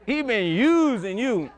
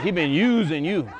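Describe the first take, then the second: First: "He been using you" said slow and drawn out, leaning hard on "using"; preacher savoring the roommate's accusation; slow emphatic repeat. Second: Said in the usual way. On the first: Retold or imitated. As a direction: drag out "He been using you" word by word to let it sink in.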